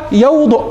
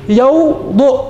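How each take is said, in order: First: Said in the usual way. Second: "يوضؤ" drawn out, split in two after the first syllable; broken into syllables. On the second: Shown as a demonstration. Teacher sounding out an example verb for students, syllable by syllable. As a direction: say "يوضؤ" slowly in two separate beats.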